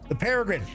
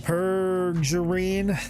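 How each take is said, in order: First: The middle syllable sounds like 're'. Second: The middle syllable sounds like 'jur'. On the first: The speaker calls it right. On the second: The speaker calls it wrong.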